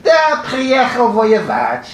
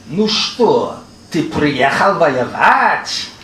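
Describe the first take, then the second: First: Put-on high, slow Yiddish-accented answer; imitated Yiddish accent, pitched high and stretched out; mock Yiddish accent. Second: Put-on drawn-out Yiddish-accented question, swooping up on the last word; slow, teasing imitation of a Yiddish accent; mock Yiddish accent. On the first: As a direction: answer back in an exaggerated, singsong Yiddish accent. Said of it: "in the same mock Yiddish accent". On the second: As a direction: ask it slowly in an exaggerated Yiddish accent.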